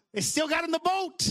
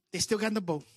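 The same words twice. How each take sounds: First: High-pitched, punchy preacher's cry; emphatic proclamation. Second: Said in the usual way. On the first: Real, not acted. Proclaims line, then repeats softly.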